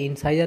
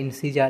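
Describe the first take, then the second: First: The second vowel sounds like "eye". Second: The second vowel sounds like "ee". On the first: The speaker calls it wrong. "এটা ইনসাইজার না" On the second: The speaker calls it right. "এরকম একটা উচ্চারণ হয়"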